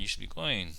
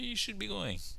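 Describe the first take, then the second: First: The tone is firm and serious. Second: The tone is soft and gentle. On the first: A firm telling to leave. "like with a serious tone" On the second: A gentle suggestion to leave. "like a gentler tone"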